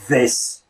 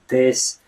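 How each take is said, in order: First: The th is made with tongue between teeth. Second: The th sounds like a quick D. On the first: "not so much as this" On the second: "the T H actually does become more like this"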